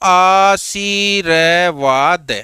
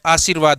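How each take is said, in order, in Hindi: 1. शब्द धीरे-धीरे, एक-एक ध्वनि करके बोला गया है। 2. शब्द सामान्य गति से बोला गया है।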